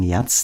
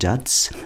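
First: The word is said with a Swabian-style pronunciation. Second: The word is said with an Italian-style pronunciation. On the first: "manche Schwaben sagen Jazz, das hört sich dann schon nicht mehr so cool an" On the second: "Die Italiener sagen Jazz"

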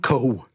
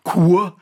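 First: The vowel is a plain 'o' sound. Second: The vowel is a 'ua' diphthong. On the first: This is the Upper Palatinate dialect form. "die sagen Ko" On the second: This is the southern dialect form. "Die sagen nicht Kur, wie im Süden"

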